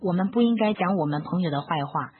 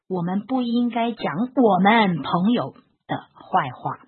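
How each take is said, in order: First: It is said in a flat, even tone. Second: The word 我们 is said with extra emphasis. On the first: "我用平板调说" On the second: "我加强的地方在于我们"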